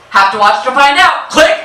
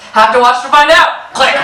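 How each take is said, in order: First: Higher, louder teasing tease with a rising end; teasing reply. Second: Higher, louder teasing with a rising end; teasing reply, laughing. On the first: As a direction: tease Dad, letting the last word rise. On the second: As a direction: repeat the tease to Dad, laughing, rising on out. Same teasing reply again. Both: Retold or imitated.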